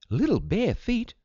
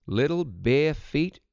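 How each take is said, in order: First: High-pitched shocked question; gasped. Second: Said in the usual way. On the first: A narrator's reading. Mother hears of bare footprints in the woods, gasping in surprise. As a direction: echo it back high in astonishment. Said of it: "gasped Mother".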